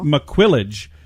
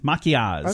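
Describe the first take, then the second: First: It is read out with English spelling sounds. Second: It is pronounced with French sounds. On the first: The speaker calls it wrong. "I would say" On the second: The speaker calls it right. "it's like French and it's maquillage"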